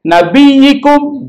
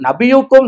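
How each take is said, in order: First: The vowel after nabiy- is i. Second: The vowel after nabiy- is u. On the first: The speaker calls it right. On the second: The speaker calls it wrong.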